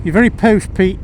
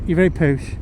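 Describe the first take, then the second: First: Mock-posh ribbing, pitched up and louder; teasing friend. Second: Said in the usual way. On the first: Mimicking a friend who teases him about his posh house. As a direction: tease your mate about being posh.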